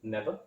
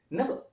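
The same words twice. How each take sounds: First: Said in the usual way. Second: "Never." much higher, with a sharp rising tune; emphatic repeat. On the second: Real, not acted. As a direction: insist a second time.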